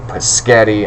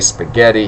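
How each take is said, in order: First: The word is pronounced with mangled opening sounds. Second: The word is pronounced in the ordinary way. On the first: "He'd say paschetti" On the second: "He couldn't say spaghetti"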